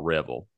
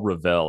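First: The name rhymes with rebel. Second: The name does not rhyme with rebel. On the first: This is how the family in the South says it. "down here in the South, we're all Revel" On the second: This is how the family in California says it. "family in California, they're all Revel out there"

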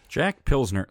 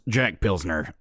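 First: It is said in his normal voice. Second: It is said in a put-on character voice.

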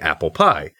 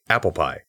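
First: It is stressed like the dessert name. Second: It is stressed like a surname.

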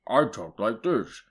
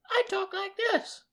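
First: The voice is put on low and deep. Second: The voice is put on high and thin. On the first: A big character is talking. "a big guy with a deep voice" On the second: A little character is talking. "a little guy with a high voice"

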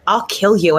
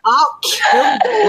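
First: It is said at normal speed. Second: It is said slowly and deliberately.

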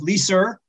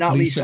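First: The name ends with an added r sound. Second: The name ends without any r sound. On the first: "So we add the R's. They call my wife Lisa" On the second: "not Lisa"

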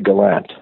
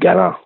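First: It is said the local English way. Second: It is said the Acadian French way.

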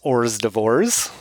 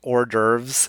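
First: It is said as spelled, like 'horse doovers'. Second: It is said the French way, 'or-durvz'. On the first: The speaker calls it wrong. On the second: The speaker calls it right.

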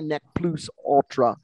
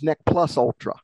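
First: The phrase is said with Latin-style vowels. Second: The phrase is said with English-style vowels. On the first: "if you pronounced it in Latin, you might say" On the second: "But in English, it becomes"

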